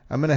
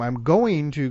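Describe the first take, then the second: First: Going to is reduced to gonna. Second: Going to is pronounced in full. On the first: The speaker calls it right. "So I'm gonna head off to the store" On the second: The speaker calls it wrong. "if you stopped and sounded that out every time"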